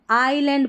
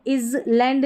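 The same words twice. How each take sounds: First: "आइलैंड" as eye-land; "आइलैंड" opening on a pure eye sound; silent s. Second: "island" as iz-land; wrong demo "island", slow iz-land; s wrongly sounded. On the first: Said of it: "ये silent है". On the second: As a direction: say "island" with an audible s. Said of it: "इसको island नहीं". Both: Shown as a demonstration.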